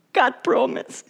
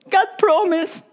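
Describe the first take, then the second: First: Said in the usual way. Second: High, ringing call; raised proclamation. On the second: Acted. Preacher proclaiming God's promise, pitched high. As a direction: lift it up like a proclamation.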